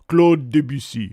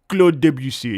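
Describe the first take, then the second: First: The name is said with a French accent. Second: The name is said with an English accent.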